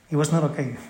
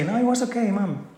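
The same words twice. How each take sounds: First: Said in the usual way. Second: Put-on high, childish fib; kid fibbing to mom. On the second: Child assuring mom it went fine, higher voice. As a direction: play the kid brushing it off to mom.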